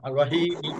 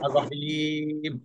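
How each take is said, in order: First: The ee vowel is held for one beat. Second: The ee vowel is held for four beats. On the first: "যখন মিমের পরে জেড দিয়ে পড়বেন তখন হবে এক আলিফ" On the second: "মিমের পরে সুকুন দিয়ে পড়বেন তখন হবে চার আলিফ"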